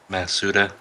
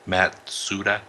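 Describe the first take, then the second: First: The name has no 't' sound before 's'. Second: The name has a 't' sound before 's'. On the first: The speaker calls it wrong. "I said it wrong" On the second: The speaker calls it right. "I was putting the S before the T"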